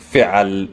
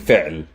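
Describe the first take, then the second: First: An a vowel follows the ain sound. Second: No vowel follows the ain sound. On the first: The speaker calls it wrong. "I'm not saying fi'al" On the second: The speaker calls it right. "I'm saying fi'l ... there's no vowel sound"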